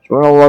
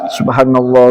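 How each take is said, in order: First: It is said hurriedly and slurred. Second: It is said slowly and tenderly.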